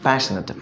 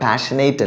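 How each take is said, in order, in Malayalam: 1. അവസാന അക്ഷരം 'nit' പോലെ ചെറുതാണ്. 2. അവസാന അക്ഷരം 'nate' പോലെ നീളമുള്ളതാണ്.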